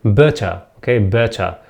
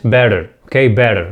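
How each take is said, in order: First: "better" British style, crisp t and no final r; British accent. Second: American accent. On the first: English teacher shows learners the word in British accent. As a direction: say "better" the British way, ending in an open uh. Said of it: "In British accent, I think better". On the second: English teacher models it for learners in American accent. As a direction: say "better" the American way, like bedder. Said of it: "وفي الأمريكان accent". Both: Shown as a demonstration.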